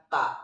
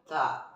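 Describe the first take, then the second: First: "ta" with no air released; ta without airflow. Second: "ta" with air flowing out; aspirated t on "ta"; ta with airflow. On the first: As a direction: say "ta" with an unaspirated t. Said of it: "Bukan ta". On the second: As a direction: release a puff of breath after the t in "ta". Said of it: "Ada udara yang mengalir". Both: Shown as a demonstration.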